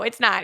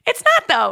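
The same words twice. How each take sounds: First: Said in the usual way. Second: Firm denial with a raised, stressed not; insisting. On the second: Real, not acted. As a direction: stress on not in It's not, though, said firmly and louder.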